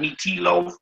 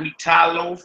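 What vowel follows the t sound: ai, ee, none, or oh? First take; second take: ee; ai. First: An 'ee' vowel is sounded after the t. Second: An 'ai' vowel is sounded after the t. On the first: "not meat tea loaf" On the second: "not meat tie loaf"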